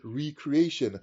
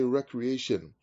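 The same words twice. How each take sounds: First: It sounds like 're' plus 'creation'. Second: The first syllable sounds like 'wreck'. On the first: Something created anew, as at the first creation. "you can also pronounce it recreation because that's what it was like first" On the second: Leisure done for fun and enjoyment. "We always say recreation for fun and enjoyment and satisfaction"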